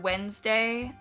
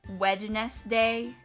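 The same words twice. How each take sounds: First: The word is said normally with a silent d. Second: Every letter is sounded out, including the d.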